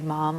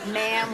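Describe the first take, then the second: First: The vowel is long and open like mom. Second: The vowel rhymes with the vowel in spam. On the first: "In Britain, I guess they would say mom" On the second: "which rhymes with spam"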